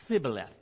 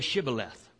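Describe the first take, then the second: First: The word begins with a lisped 'th' sound. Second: The word begins with a clear 'sh' sound. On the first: The speaker calls it wrong. "had a lisp or something like this because they couldn't say Shibboleth. It always come out Thibboleth" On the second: The speaker calls it right. "then say Shibboleth"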